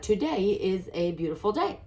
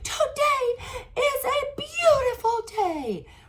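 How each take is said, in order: First: It is said plainly, without strong emotion. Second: It is said with a lot of emotion.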